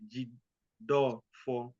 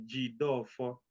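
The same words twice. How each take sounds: First: Jidofo said slowly, syllable by syllable. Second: Said in the usual way. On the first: Shown as a demonstration. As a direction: spell out Jidofo slowly, each syllable clear. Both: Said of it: "let me say it syllable by syllable".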